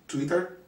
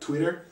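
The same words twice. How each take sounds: First: The word is said with a Spanish accent. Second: The word is said with a plain American accent.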